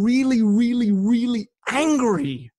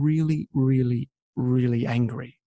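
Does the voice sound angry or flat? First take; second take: angry; flat. First: The words are said with strong, angry feeling. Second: The words are said flatly, without feeling. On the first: The speaker truly feels the anger. The speaker calls it right. "then you would express it like that" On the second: The anger is not conveyed. The speaker calls it wrong. "rather than saying"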